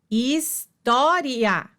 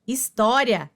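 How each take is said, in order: First: História stretched out, each syllable separate; slow syllable-by-syllable. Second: Said in the usual way. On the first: Shown as a demonstration. Teacher showing students the syllables: história said slowly and split apart. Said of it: "teacher repeats word slowly". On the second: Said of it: "teacher models the word".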